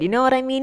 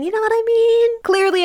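First: Said in the usual way. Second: High squeaky voice. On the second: Acted. Asks once, then repeats it squeaky.

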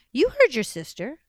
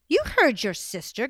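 First: HEARD hit hard and louder; firm "heard" stressed in "You heard your sister". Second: YOU punched hard and louder; firm "you" stressed in "You heard your sister". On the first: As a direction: lean on "heard" like a mother out of patience. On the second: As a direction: lean on "you" like a tired mother. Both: Acted. Mother repeats order, stressed.

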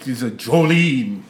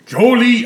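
First: Vampire voice. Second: Belted out. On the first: Acted. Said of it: "Dracula's go-to karaoke song". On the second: Pretend. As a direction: belt it like a karaoke chorus.

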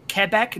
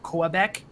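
First: "Quebec" said "keh-BEK"; French-descent "Quebec" with a plain k; French-Canadian pronunciation. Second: "Quebec" said "kwuh-BEK"; outsider's "Quebec", kwuh-BEK; non-French pronunciation. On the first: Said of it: "we'll say Quebec, not Quebec". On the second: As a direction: say "Quebec" with a kw sound. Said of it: "not Quebec". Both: Shown as a demonstration.

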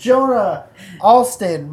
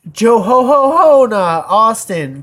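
First: Said in the usual way. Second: Loud, high Santa laugh worked into "Ho Ho Ho"; jolly mock Santa call, drawn out. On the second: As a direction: boom out "Ho Ho Ho" slowly like Santa. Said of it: "'cause Santa".

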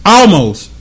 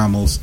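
First: "almost" jumped high and a little louder; stress on ALMOST. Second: Said in the usual way. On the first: Real, not acted. Owning up to a near slip, stress on ALMOST. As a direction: hit "almost" high, falling at the end. Repeats the word for emphasis.

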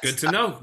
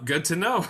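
First: Said in the usual way. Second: 'Good to know' rising and a bit louder, amused. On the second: Real, not acted. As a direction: lift 'Good to know' at the end teasingly.

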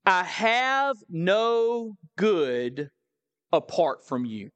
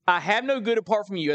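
First: Slow, weighty reading. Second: Quick run through the verse; brisk rereading. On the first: This is a powerful statement. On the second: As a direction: read it straight through at a fast clip. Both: Real, not acted.

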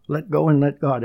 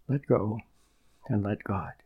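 First: Said in the usual way. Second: Softer, falling repeat of "Let go and let God". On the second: Shown as a demonstration. Preacher repeats the saying softly for his listeners to absorb. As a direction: let it sink in gently. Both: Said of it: "That's a beautiful expression".

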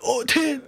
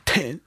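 First: "Oh, ten." jumps high in disbelief; shocked. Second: Said in the usual way. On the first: Retold or imitated. Retelling his shock at the tax bill, high surprise.

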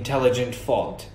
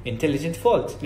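First: "intelligent fault" in a native-like English accent. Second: "intelligent fault" in everyday Saudi-accented English. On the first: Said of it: "أتكلم بلهجة شوية الإنجليش". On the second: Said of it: "ما حقول زي كده". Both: Shown as a demonstration.

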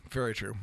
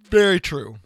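First: Said in the usual way. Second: Talking through a yawn; stretched yawn-filled words. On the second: Real, not acted. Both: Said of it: "Sorry, I'm yawning".

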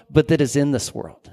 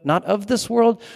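First: "that" pressed then falling; stress on that. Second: "world" lifted high and held; stress on world. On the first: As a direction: lean on "that", then let "in this world" fall. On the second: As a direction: rise up on "not of this world". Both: Shown as a demonstration.

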